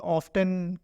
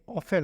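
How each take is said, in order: First: The 't' sound is clearly pronounced. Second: The 't' sound is left out. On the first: The speaker calls it wrong. "कुछ लोग इस तरह भी बोलते हैं" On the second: The speaker calls it right. "लेकिन ये ऑफन होता है"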